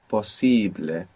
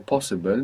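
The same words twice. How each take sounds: First: The stress is on the middle syllable. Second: The stress is not on the middle syllable.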